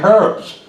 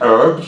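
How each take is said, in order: First: Said the English way, with a pronounced h. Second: Said the American way, with a silent h.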